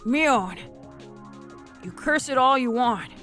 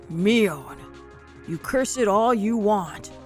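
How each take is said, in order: First: It is said in a plain, ordinary voice. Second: It is said in a powerful put-on voice.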